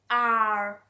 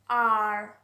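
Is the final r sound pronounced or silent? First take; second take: pronounced; pronounced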